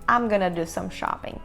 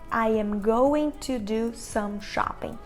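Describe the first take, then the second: First: The words are reduced and run together quickly. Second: Each word is said fully and separately. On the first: The speaker calls it right. "o que parece bem rápido" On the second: The speaker calls it wrong. "eles não iriam dizer"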